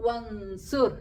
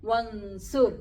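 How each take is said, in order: No difference in how they are said.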